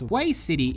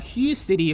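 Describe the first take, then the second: First: The name gets a reading nearer to Vietnamese. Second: The name gets a plain English-style reading. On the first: The speaker has just heard the proper pronunciation. "if you heard how to pronounce it properly for the first time" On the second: The speaker is new to the name. "if you're new and not Vietnamese"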